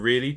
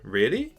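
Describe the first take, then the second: First: The pitch stays level or falls at the end. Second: The pitch rises at the end.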